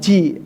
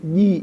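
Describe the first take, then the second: First: It starts with a voiceless 'ch' sound. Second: It starts with a voiced 'j' sound. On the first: The speaker calls it wrong. "bukan ci" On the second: The speaker calls it right.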